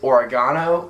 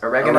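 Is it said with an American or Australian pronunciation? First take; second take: Australian; American. First: It is said the Australian way. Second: It is said the American way.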